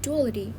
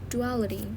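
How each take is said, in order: First: The stress is on the first syllable. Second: The stress is on the second syllable. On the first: The speaker calls it wrong. "it's not duality" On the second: The speaker calls it right. "the stress is full on the second component"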